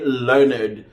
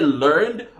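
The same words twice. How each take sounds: First: Every letter of the word is clearly sounded. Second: Some letters of the word are barely heard. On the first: This is the old, correct way. The speaker calls it right. "if you go to court, you will hear them say learned" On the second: This is how people say it today. The speaker calls it wrong. "We say learned"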